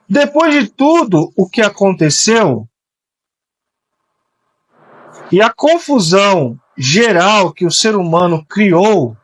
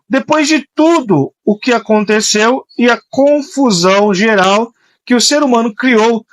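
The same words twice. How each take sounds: First: It is said more slowly. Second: It is said at a normal speed.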